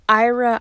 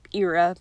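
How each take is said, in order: First: Ira said as EYE-ruh; plain Ira. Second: Ira said as EE-ruh; J-Rock style Ira. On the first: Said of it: "I kept calling him Ira in my head". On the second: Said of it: "I sounded like J-Rock from Trailer Park Boys". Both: Shown as a demonstration.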